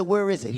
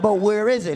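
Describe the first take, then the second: First: Said in the usual way. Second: Insistent repeat of "where is it". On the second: Acted. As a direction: press the question on "where is it". Asks again, not getting directions.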